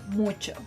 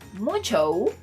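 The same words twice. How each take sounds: First: The final O vowel is short and clipped. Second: The final O vowel is drawn out long. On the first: The speaker calls it right. "The correct pronunciation would be mucho" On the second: The speaker calls it wrong. "if you're thinking that this word is pronounced mucho, I'm sorry to tell you, but you're wrong"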